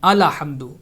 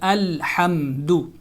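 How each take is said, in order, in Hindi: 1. hamdu से पहले 'l' के बाद एक स्वर आता है। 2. 'l' पर रुका जाता है, उसके बाद कोई स्वर नहीं आता। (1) "आला हम्दु पढ़ते हैं ... तो ये गलत है" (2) "इसको रुक के पढ़ेंगे अल हम्दु"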